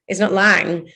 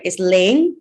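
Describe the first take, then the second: First: "Lang" with short A, rhyming with "sang"; wrong pronunciation. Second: "Lang" said as "Laing", rhyming with "rain"; correct pronunciation. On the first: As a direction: say "Lang" with a flat short vowel. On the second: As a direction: give "Lang" a long AY vowel. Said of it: "No one says my second name right". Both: Retold or imitated.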